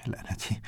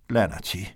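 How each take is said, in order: First: Softer, whispered under the breath; whispered curse. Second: Said in the usual way. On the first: A narrator's reading.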